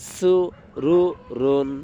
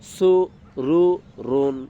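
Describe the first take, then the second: The two takes are said the same way.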